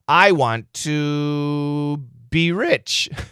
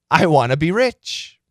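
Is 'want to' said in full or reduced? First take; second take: full; reduced. First: Want to is said fully as two words. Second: Want to is reduced to wanna.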